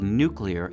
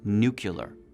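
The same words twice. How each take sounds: First: The word ends sounding like 'clear'. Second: The word ends sounding like 'cular', as in muscular. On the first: "the pronunciation of the word nuclear" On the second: "nuclear is considered stigmatized"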